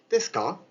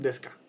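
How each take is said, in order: First: The pitch rises at the end. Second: The pitch stays flat at the end. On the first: The speaker calls it right. "bien hacia arriba" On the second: The speaker calls it wrong. "no es un desu ka"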